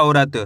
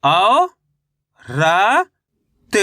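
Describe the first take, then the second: First: Said in the usual way. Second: "औ, रा, त" as separate, drawn-out syllables with pauses. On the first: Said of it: "शब्द का उच्चारण". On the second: Shown as a demonstration. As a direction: sound out औ, रा, त one at a time. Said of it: "एक अक्षर का उच्चारण". (अक्षर-अक्षर अलग करके "औ, रा, त")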